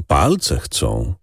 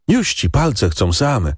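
First: Said in the usual way. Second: Put-on boy's voice. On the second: A narrator's reading. Boy, slower.

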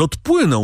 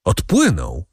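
First: Higher, raised cry of parting; a pitched-up farewell cry; called out. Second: Said in the usual way. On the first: A narrator's reading. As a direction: call it after the vanishing sail. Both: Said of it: "zawołał Morel".

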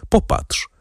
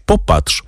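First: Breathy whisper of Popatrz; barely voiced Popatrz; hushed plea to look. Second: Said in the usual way. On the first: A narrator's reading. Woman unveils her face.

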